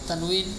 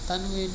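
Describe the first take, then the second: No difference in how they are said.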